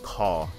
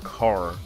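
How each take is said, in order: First: The final r is dropped entirely. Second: The final r is clearly pronounced. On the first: "They'd always say toddy and caw and mutton" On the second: "I've never heard them say like Martin or car"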